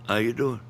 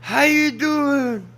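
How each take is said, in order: First: It is said in a flat, even tone. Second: It is said with excited, bright enthusiasm. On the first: Greeting someone politely without making a fuss. "I pretty much don't change the tone of my voice" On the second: Greeting someone like a long lost friend. "I ain't gonna say"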